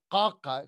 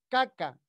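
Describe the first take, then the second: First: The first vowel sounds close to an o. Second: The first vowel is a plain open a. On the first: The speaker calls it right. "suena como una especie de O" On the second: The speaker calls it wrong. "Ya no es caca"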